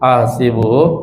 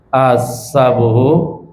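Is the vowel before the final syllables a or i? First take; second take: i; a. First: The vowel after the s sound is i. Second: The vowel after the s sound is a. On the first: "wal kasri" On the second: "bil fathi"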